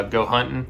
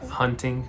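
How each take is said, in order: First: Hunting said with a Southern twang; southern accent. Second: Hunting said carefully with a clear final ng; hunting said the standard way, not Southern; corrected pronunciation. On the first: Real, not acted. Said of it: "My southern accent". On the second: Shown as a demonstration. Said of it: "you shouldn't say".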